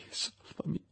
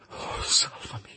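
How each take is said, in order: First: Unvoiced plea on salvami; desperate whisper. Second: Slow unvoiced begging; desperate whisper. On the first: Victor begging Clerval again, whispered. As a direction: beg faintly in terror. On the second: Victor begging Clerval to save him, whispered. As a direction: plead in breathless terror.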